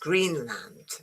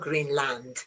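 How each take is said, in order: First: The stress is on the first syllable. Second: The stress is on the second syllable. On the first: The speaker calls it right. "the stress is on green" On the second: The speaker calls it wrong. "is not Greenland"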